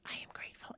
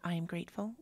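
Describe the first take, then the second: First: It is whispered. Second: It is spoken out loud. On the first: "We whisper" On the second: "we chant out loud"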